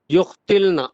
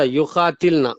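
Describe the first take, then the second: First: युक्तिलना with no long aa after the q; alif dropped. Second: युकातिलना with a long aa after the q; alif kept. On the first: Student reciting the conjugation to the teacher, युक्तिलना with its alif dropped. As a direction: run q straight into t in युक्तिलना. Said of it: "अलिफ को drop कर दे रहे हैं". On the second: Student correcting the recitation, युकातिलना with the alif kept long. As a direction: hold the qaa open in युकातिलना. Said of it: "यहाँ पर बाकी रहेगा". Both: Real, not acted.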